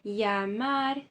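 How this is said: The double L sounds like a y. This is the Spanish accent. "na Espanha, eles leem isso como se fosse uma letra I"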